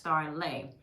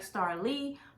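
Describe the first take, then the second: First: The name ends with an 'ay' sound. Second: The name ends with an 'ee' sound. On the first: The speaker calls it right. "but it is pronounced Starlay" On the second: The speaker calls it wrong. "it looks like Starlee"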